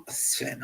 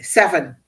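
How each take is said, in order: First: "Sven" as one syllable, no vowel between S and V; mispronounced name. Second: "seven" in two syllables, SEV-en, louder; corrected pronunciation. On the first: Host slipping on a name, "Sven" in one syllable. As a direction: say "Sven", running S straight into V. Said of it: "I keep saying Sven". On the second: Host correcting the slip, "seven" in two clear syllables. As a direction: punch out "seven" with a vowel after the S. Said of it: "I keep saying Sven, seven". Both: Real, not acted.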